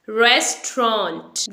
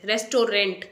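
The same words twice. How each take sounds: First: "रेस्टोरेंट" squeezed into two syllables, res-tront; tro in middle. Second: "रेस्टोरेंट" as three full syllables, res-to-rent; common mispronunciation. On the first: Teacher modelling the correct word, slow res-tront. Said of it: "tro sound in between". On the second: Teacher showing what not to say, res-to-rent. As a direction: sound every vowel in "रेस्टोरेंट", ending in rent. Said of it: "रेस्टोरेंट नहीं बोलना है". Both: Shown as a demonstration.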